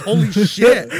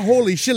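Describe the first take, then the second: First: Holy shit! said through a laugh, louder; laughing exclaim. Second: Holy shit! called out louder and higher; excited exclaim. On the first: Cracking up at the sight, Holy shit! laughing. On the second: Shouting Holy shit! at the sight, excited. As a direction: blurt Holy shit! in wonder. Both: Retold or imitated.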